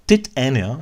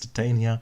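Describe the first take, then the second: First: The name is said in a posh way. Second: The name is said in an ordinary way.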